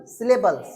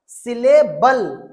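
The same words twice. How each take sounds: First: Said in the usual way. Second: syllable loud and very slow, stretched syllable by syllable; teacher loudly stretching syllable to correct a mix-up; corrective emphasis. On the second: Shown as a demonstration. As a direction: spell out syllable by ear, leaning hard on the last syllable. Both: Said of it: "syllabus नहीं".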